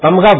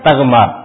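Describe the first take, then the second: First: The m sound comes before the gh sound. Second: The gh sound comes before the m sound. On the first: This is the commonly used form. "اس کو تمغا بولنا غلط سمجھتے تھے" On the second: This is the word's original form. "اصل لفظ کیا تھا؟"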